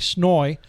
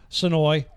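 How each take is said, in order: First: The name is said like one syllable, 'Snoy'. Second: The name is not squeezed down into 'Snoy'.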